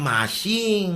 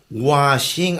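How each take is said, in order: First: The word begins with an M sound. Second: The word begins with a W sound. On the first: The speaker calls it wrong. "Saan ang mashing?" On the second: The speaker calls it right. "washing, ante"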